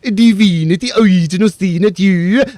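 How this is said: It is said with a put-on Norwegian accent.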